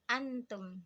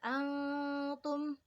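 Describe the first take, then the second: First: The n is pronounced clearly before the t. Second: The n is hidden and nasalized into the t. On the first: The speaker calls it wrong. "tapi kita bacanya jadi idhar" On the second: The speaker calls it right. "seharusnya kita membaca ayat tersebut menjadi ikhfa"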